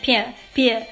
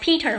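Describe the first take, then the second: First: It is said in an Irish accent. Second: It is said in a standard accent.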